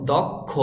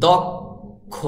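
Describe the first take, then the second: First: দক্ষ joined as "dokkho", ending in a clear o; careful "dokkho" for দক্ষ; final o sound. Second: দক্ষ split slowly as "dok... kho"; correct pronunciation. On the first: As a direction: round off দক্ষ with an o vowel. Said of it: "তারপরে উচ্চারণ হবে ওকারের মতো". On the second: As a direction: hold a gap after the k in দক্ষ, then aspirated kho. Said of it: "আপনার বলতে হবে". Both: Shown as a demonstration.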